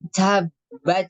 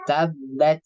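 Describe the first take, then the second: First: The t is released with heavy, excessive air. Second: The t is released with light, moderate air. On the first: The speaker calls it wrong. "itu berlebihan" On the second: The speaker calls it right. "tapi tabat"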